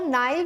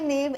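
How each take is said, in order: First: The first vowel sounds like 'eye'. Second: The first vowel sounds like 'ay'. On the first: "it can also be pronounced as नाइफ" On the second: "I pronounce it as नेव"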